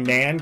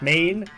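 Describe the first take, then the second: First: The word is said with a plain short vowel. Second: The word is said with a drawn ay vowel. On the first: "instead of saying man" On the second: "certain people in certain parts of the world, ... kind of just say, like, Maine"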